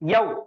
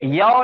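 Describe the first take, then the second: First: The vowel sound is said short and quick. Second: The vowel sound is drawn out long. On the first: The speaker calls it right. "इसको भी एकदम जल्दी पढ़ना है" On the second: The speaker calls it wrong. "यौ नहीं पढ़ेंगे हम"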